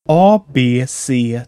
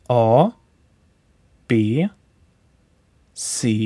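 First: The letters are said at a normal pace. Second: The letters are said slowly and drawn out.

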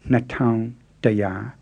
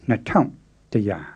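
First: Taung has a low tone. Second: Taung has a creaky tone. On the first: "instead of" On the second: "you'll often hear"

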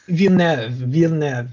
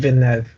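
First: Every sound of the name is exaggerated. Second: The name is said in a relaxed way.

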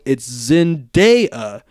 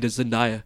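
First: The name is pronounced just as it's spelled. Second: The name is pronounced differently from its spelling. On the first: The speaker calls it right. "pronounced like it's spelled" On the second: The speaker calls it wrong. "I think I say Zendaya"

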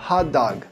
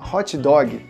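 First: Said with an English pronunciation, breathy h. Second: Said with a Brazilian Portuguese pronunciation. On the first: The speaker calls it right. "Se você quiser falar direitinho, repete comigo a pronúncia" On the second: The speaker calls it wrong. "em português a gente fala hot dog, né? Dói até ouvido um pouco essa pronúncia"

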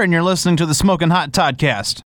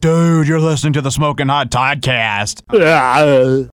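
First: It is said in a plain, ordinary way. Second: It is said in a cool, laid-back way. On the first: The speaker calls it right. "Say it like you would say" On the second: The speaker calls it wrong. "Don't say it some way cool"

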